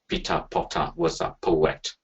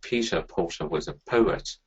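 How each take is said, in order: First: Every syllable gets the same equal stress. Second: Strong syllables alternate with weak, reduced syllables. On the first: The speaker calls it wrong. "equal energy to each single syllable" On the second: The speaker calls it right. "we have a high respiratory energy and a low respiratory energy"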